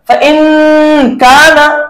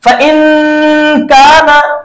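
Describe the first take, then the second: The two takes are said the same way.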